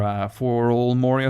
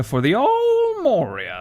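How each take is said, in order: First: Said in the usual way. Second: High, slow squeaky repeat; silly high voice. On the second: Pretend. Gamer repeating the place name in a squeaky voice. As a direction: drag it out in a goofy falsetto.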